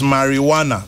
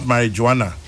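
First: The j is pronounced like an h. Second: The j is pronounced like a j. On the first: The speaker calls it right. "It is marijuana" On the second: The speaker calls it wrong. "not marijuana"

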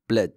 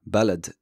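First: The first syllable's short vowel disappears. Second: The first syllable keeps its short vowel. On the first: This is how a Moroccan says it. "But in Moroccan, it sounds like bled" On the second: This is how most dialects say it. "it sounds very much the same in most dialects"

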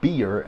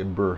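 First: The vowel is a clear ee sound. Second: The vowel sounds like ur, as in burr. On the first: "We don't say beer" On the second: "we say burr here in Texas, in the South"

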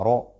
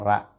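First: The vowel is dark and rounded, like 'ro'. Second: The vowel is open and light, like 'ra'. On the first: The speaker calls it right. "ro et non ra" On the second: The speaker calls it wrong. "et non ra"

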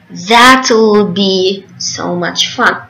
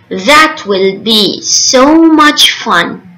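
First: The words 'that will' are contracted to 'that'll'. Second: The words 'that will' are said in full.

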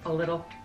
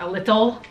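First: The middle consonant of 'little' is a soft D-like sound. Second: The middle consonant of 'little' is a clear T sound. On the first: The speaker calls it right. "We make it like a D" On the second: The speaker calls it wrong. "Not a little"

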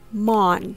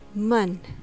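First: The vowel is a full, unreduced o sound. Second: The vowel is a short, reduced schwa. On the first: The speaker calls it wrong. "instead of mon" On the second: The speaker calls it right. "pronounced with the light U sound or the schwa sound"

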